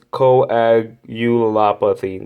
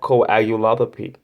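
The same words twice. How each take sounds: First: The word is said at a slow pace. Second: The word is said at a quick pace. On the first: The speaker calls it right. "I have to say it slow" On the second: The speaker calls it wrong. "I'm pretty sure I'm saying that wrong"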